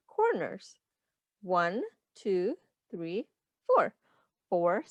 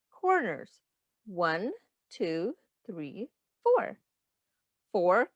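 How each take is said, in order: Both takes have the same delivery.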